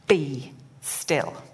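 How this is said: It is said as a firm command.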